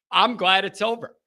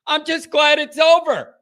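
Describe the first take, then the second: First: Said in the usual way. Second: Louder, higher exclamation of relief; emphatic relief. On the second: Real, not acted. Host to listeners after the game, emphatic relief. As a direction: say it louder and higher, dropping at the end. Repeats it with more force.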